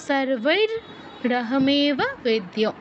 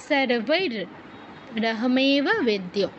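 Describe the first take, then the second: The two takes are said the same way.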